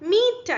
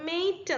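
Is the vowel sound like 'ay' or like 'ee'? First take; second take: ee; ay. First: The vowel is a long 'ee' sound. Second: The vowel is an 'ay' sound. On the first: This is the later, modern pronunciation. "പിന്നീട് ഇത് മീറ്റ് ആയിട്ട് മാറി" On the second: This is the older pronunciation. "Middle English പീരീഡിൽ വായിച്ചിരുന്നത് മെയ്റ്റ് എന്നായിരുന്നു"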